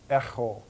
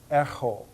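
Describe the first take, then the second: First: The middle consonant is made far back, rasping. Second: The same.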